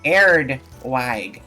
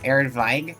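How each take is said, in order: First: The second word begins with a W sound. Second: The second word begins with a V sound.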